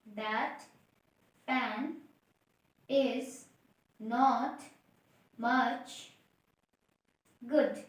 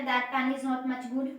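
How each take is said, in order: First: Each word said alone with pauses; one word at a time. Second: Slow dictation pace; slow, word by word. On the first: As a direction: pause after every word. (हर शब्द अलग-अलग रुककर) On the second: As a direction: spell out each word slowly. (धीरे-धीरे, शब्द-शब्द बोलकर) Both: Shown as a demonstration. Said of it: "क्या बताया?".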